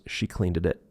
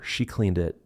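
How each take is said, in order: First: CLEANED IT with an extra syllable, "cleaned-ed-it"; linked ending. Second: CLEANED IT with a single D, "cleand it"; unlinked ending. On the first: Teacher showing the linked version, CLEANED IT run on. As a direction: stretch the D link from CLEANED into IT. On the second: Teacher showing the basic form, CLEANED IT unchanged. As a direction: say CLEANED as one syllable before IT. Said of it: "the linking continues". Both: Shown as a demonstration.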